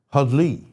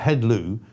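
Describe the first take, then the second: First: The word ends with an 'ee' sound. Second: The word ends with an 'oo' sound. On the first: It is how the word is actually pronounced. The speaker calls it right. "I think you pronounce it hudley" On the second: It follows how the word is spelled. The speaker calls it wrong. "it looks like headloo"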